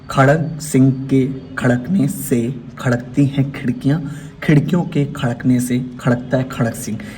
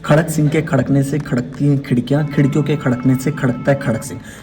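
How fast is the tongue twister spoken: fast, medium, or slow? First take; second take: slow; medium. First: It is spoken at a slow pace. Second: It is spoken at a medium pace. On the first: "पहले slow" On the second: "फिर उसके बाद second"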